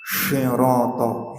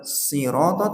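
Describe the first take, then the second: First: The word begins with a sh sound. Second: The word begins with an s sound. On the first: The speaker calls it wrong. "kalau baca shadnya begini" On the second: The speaker calls it right. "Syirata bukan sirata"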